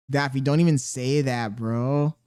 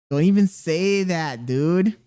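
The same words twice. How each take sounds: First: Said in the usual way. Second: "Don't even say that" slower and louder, EVEN leaned on; slow it down and push "even" to shut it down; a louder, drawn-out "don't EVEN say that"; firm insistent repeat. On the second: Real, not acted.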